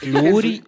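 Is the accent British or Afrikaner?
Afrikaner. It is said in an Afrikaner accent.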